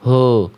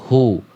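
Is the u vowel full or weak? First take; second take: weak; full. First: The u vowel is weak and unrounded. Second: The u vowel is full and rounded. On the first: The speaker calls it wrong. "bukan cuma hu" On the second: The speaker calls it right. "memuncungkan kedua mulut"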